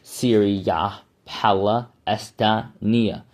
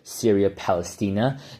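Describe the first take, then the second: First: Palestina is pronounced in a careful, drawn-out way. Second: Palestina is pronounced in the everyday way.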